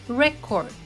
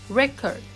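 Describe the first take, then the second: First: The stress is on the first syllable. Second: The stress is on the first syllable.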